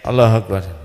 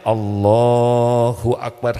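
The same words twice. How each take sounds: First: It is said hurriedly, without feeling. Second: It is said slowly, with calm presence.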